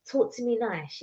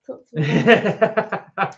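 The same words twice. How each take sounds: First: Said in the usual way. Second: Slow, laughing mock of a smooth-talking gym guy; "Talk to me nice" drawn out slowly, laughing, as a posing gym guy; mock Bay Area guy. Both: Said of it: "Is that how they talk?".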